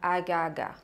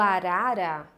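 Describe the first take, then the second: First: The r is replaced by a g sound. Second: The word has a tapped r sound. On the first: The speaker calls it wrong. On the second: The speaker calls it right.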